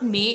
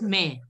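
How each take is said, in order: First: The wrong May, as a learner says it; May said the mistaken way, set up for correction; May with the wrong vowel; mispronounced May. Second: May with an open "eh" vowel; the teacher's corrected May, falling. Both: Shown as a demonstration. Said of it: "not May, it's May".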